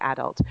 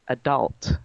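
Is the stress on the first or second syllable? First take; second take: first; second. First: The stress is on the first syllable. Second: The stress is on the second syllable.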